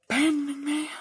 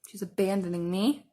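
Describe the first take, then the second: First: Higher, hammed-up wail of abandonment; mock dramatic lament. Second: Said in the usual way. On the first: Real, not acted. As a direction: play the betrayed friend, over the top.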